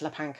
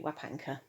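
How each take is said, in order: First: The word begins with an L sound. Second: The word begins with a W sound. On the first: The speaker calls it wrong. "I pronounced it as Lapanka" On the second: The speaker calls it right. "when it should be Wapanka"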